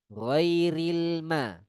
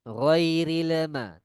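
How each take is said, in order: First: The L sound is plain and smooth. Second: The L sound has an added echoing bounce. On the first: The speaker calls it right. "itu bacaan yang benar" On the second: The speaker calls it wrong. "Tidak boleh dengan"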